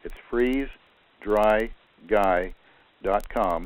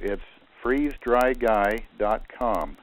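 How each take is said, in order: First: The words are said slowly and kept apart. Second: The words are said quickly and run together.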